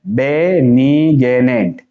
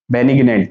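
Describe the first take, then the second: First: Very slow, stretched "बेनिग्नेंट"; syllable by syllable. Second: Said in the usual way. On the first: Shown as a demonstration. Teacher showing students how to read it, slowly in syllables. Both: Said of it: "ये क्या है".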